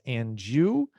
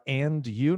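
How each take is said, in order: First: The two words are run together. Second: The two words are said separately. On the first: The speaker calls it right. "nós falamos and you" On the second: The speaker calls it wrong. "em vez de falar and you"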